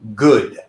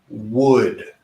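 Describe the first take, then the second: First: The word begins with a g sound. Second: The word begins with a w sound. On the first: The speaker calls it wrong. "the g sound is not correct with this word" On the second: The speaker calls it right. "where we're going to position our mouth when we pronounce this word"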